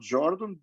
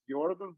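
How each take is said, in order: First: The name is pronounced the English way. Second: The name is pronounced the German way. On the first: The speaker calls it wrong. "not Jordan" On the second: The speaker calls it right. "but Jordan, because he was German"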